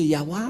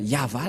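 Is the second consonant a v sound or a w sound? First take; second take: w sound; v sound. First: The second consonant is a w sound. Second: The second consonant is a v sound. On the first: The speaker calls it wrong. "certains aussi disent que, que c'est Yahwa ... un faux schéma" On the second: The speaker calls it right. "c'est bien Yahva la, la prononciation"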